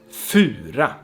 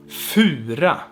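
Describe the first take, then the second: Both takes have the same delivery.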